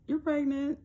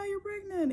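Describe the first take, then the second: First: It is said in a flat, cautious tone. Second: It is said in an excited, happy tone. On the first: The news is uncertain and not cause for celebration. "It was like" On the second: The news is good and cause for celebration. "it wasn't like, ah"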